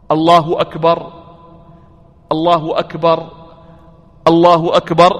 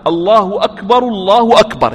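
First: Each الله أكبر followed by a long pause; separate takbirs. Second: Two الله أكبر run together in one breath; smooth, connected takbirs, correct way; joined takbirs. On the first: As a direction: stop after every الله أكبر, wrong way. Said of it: "قالوا لا يقول هكذا". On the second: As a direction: link both الله أكبر without a break. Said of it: "يصلها". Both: Shown as a demonstration.

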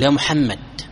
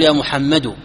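First: يا محمد ending in a silent d, muhammad; correct sukun stop. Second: يا محمد ending on a voiced u, muhammadu; wrong pausal vowel. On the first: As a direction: close محمد on a still consonant. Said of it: "يجب عليك أن تسكن". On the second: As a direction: stop on محمد with the vowel still sounded. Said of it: "ما يصح ... وتسكت". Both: Shown as a demonstration.

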